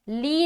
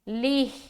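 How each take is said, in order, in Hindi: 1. यह अक्षर लंबे ee स्वर पर खत्म होता है। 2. यह अक्षर छोटे स्वर और h पर खत्म होता है। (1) "ली नहीं पढ़ना" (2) "स्टॉपिंग की सूरत में लिह लिह लिह"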